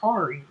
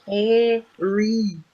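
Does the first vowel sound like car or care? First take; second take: Car; Care. First: The first vowel sounds like car. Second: The first vowel sounds like care. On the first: The speaker calls it wrong. "You say car?" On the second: The speaker calls it right. "It's obviously carry"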